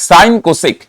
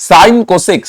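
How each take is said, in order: No difference in how they are said.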